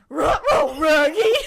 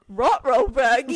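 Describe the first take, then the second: First: It is said in a Scooby-Doo impression voice. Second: It is said in the speaker's natural voice.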